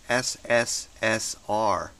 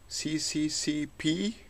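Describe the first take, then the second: First: The letters are read as ess-ess-ess-ar. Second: The letters are read as see-see-see-pee. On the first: The speaker calls it right. "you have to read it as S S S R" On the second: The speaker calls it wrong. "this is not C C C P"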